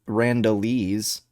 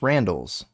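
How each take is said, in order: First: The word ends with an extra 'eez' syllable. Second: The word ends with a plain 's' sound. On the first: The speaker calls it wrong. "It's not Randall Randallese" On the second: The speaker calls it right. "It's Randall's"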